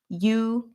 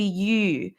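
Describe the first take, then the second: First: The vowel is a plain oo sound. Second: The vowel is an ee sound with rounded lips. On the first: "you can say" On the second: "pronounce the U correctly"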